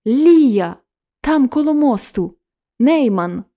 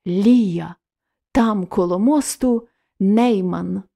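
First: Sudden urgent call, louder and higher; cry out. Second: Slower, dreamy recall of her cry; as if her words still ring in his ears; echoing in memory. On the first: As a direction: blurt it out as she tears herself away. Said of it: "крикнула". (вигук дівчини, що вирвалась, голосніше) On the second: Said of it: "дзвеніло у вухах". (повільно, мрійливо, наче луна в пам'яті) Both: Acted.

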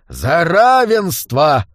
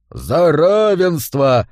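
First: Put-on slow, drawn-out drunken toast; drunken roar. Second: Slow, drawn-out group toast; thundering chorus. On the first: Monk roars a toast to the hall, drunken. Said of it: "пьяно взревел один из монахов". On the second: Whole hall answers the toast, thundering. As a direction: boom it back as a whole crowd. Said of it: "прогремел хором весь зал". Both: A narrator's reading.

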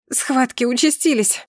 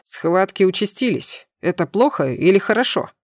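First: Higher-pitched cry of alarm; urgent outcry. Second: Frightened babble. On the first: Acted. Wife in labour alerts her husband, urgent outcry. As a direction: announce the contractions in a rising panic. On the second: A narrator's reading. Husband unsure about his wife's contractions, frightened babble. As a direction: ask it with a touch of nervous confusion. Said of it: "испуганный лепет мужа".

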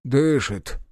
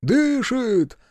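First: Relieved. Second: "Дышит!" jumps much higher, joyful; excited echo. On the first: Medic to the soldiers over the fallen man, relieved. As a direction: let out the word with relief. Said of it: "облегчённо сказал". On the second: Soldiers echoing the medic's news, high and excited. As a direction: cry it out in glad relief. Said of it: "подхватили егеря". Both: Acted.

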